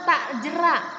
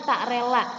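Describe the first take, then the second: First: "jera" said slowly with a clear j; corrected pronunciation. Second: "rela" with r and l in place of "jera"; wrong pronunciation. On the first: Teacher correcting a misread poem word, slowly and clearly. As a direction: stretch out "tak jera" so the j and r are distinct. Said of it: "harusnya tak jera". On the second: Teacher quoting the mistake to pupils, mispronounced. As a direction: say "tak rela" as the misread version. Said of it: "Ini disebutnya tak rela". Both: Shown as a demonstration.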